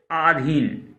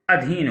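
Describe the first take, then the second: First: आधीन said wrongly with a long first vowel; आधीन, stretching the opening आ; galat: आधीन with a long आ. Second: अधीन said correctly with a short first vowel; अधीन, keeping the opening अ short and crisp; sahi: अधीन with a short अ. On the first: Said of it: "तो आधीन नहीं होता है". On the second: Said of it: "आधीन गलत है, अधीन होगा". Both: Shown as a demonstration.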